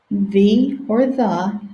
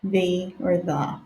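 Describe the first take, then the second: First: "The or the" as thee then thuh; two ways to say the. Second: "the or the" as thee then thuh, dropping away; again "the" as thee, then "the" as thuh; two ways to say the. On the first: Teacher modeling both sounds of "the". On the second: Teacher repeating both sounds of "the". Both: Shown as a demonstration. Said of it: "It's the same spelling".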